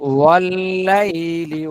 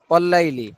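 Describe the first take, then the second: First: The doubled l is held briefly before moving on. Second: The doubled l is passed over very quickly. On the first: The speaker calls it right. "এই যে একটু একটা ইয়ে আসছে ধরে রাখার" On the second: The speaker calls it wrong. "যদি আমরা হরকতের উচ্চারণ করি তা সে তাহলে হয় ওয়াল্লাইলি, মানে অ- অধিক দ্রুত"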